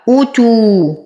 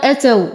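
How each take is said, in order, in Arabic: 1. الكلمة تبدأ بحركة 'u'. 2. الكلمة تبدأ بحركة 'a'. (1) "لدينا همزة محققة مضمومة فنتم ضمتها فنقول أو" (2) "أو يقال أتوا والهمزة مضمومة وليست مفتوحة"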